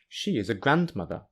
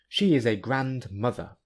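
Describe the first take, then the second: First: Only 'grand' is stressed; 'mother' is unstressed. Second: Both 'grand' and 'mother' carry stress. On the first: She is a parent's mother. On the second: She is an excellent mother.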